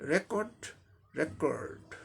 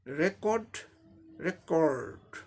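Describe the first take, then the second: Both takes have the same delivery.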